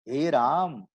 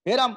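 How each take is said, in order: First: The first vowel is held long. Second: The first vowel is held short. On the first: "ये हो गया दीर्घ" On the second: "तो ये हो गया ह्रस्व"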